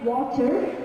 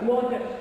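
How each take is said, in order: First: The middle t is a clear T sound. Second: The middle t is a strong exaggerated D. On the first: "So I do not say water. Water is British" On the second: "do not over-exaggerate in the D"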